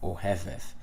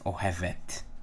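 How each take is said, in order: First: The word ends with a soft 'th' sound. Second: The word ends with a hard 't' sound. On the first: This is the biblical pronunciation. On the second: This is the modern pronunciation.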